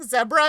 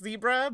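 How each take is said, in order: First: It is said in a South African way. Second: It is said in an American way. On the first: It picks up a friend's way of speaking. "I have friends who are South African, and I swear I catch myself saying zebra" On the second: It shows the influence of American speech. "this is where the influence of Americans"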